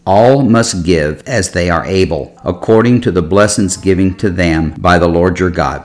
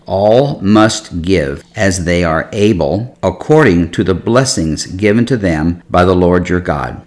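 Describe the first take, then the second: First: The verse is read at a faster pace. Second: The verse is read very slowly.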